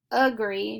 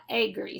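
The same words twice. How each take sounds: First: "agree" starting with a schwa, "uh-gree"; "agree" with a reduced first vowel; correct pronunciation. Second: "agree" starting with a long A, "ay-gree"; "agree" with the first vowel said long, the wrong way; wrong pronunciation. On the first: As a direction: say "agree" with a short "uh" at the front. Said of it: "We read this word as". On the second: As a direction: give "agree" a full "ay" at the front. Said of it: "not agree". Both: Shown as a demonstration.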